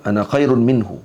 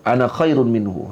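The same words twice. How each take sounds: First: Iblis's boast. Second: Slower, deliberate boast of Iblis; slow proud boast. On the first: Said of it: "Keadaan ana dalam tu". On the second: Teacher repeats Iblis's boast slowly for students, proud. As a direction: spell out the arrogance word by word. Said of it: "tu perkataan". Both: Retold or imitated.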